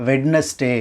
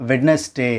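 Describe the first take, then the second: The two takes are said the same way.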